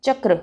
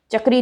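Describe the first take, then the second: First: चक्र ending in a joined "kra"; correct चक्र. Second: चक्री ending in "ree"; wrong चक्री. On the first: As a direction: end चक्र short on क्र. (चक्र, क्र संयुक्त) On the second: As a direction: end चक्री on a long ई. (चक्री, अंत में ई) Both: Shown as a demonstration. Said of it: "चक्री नहीं".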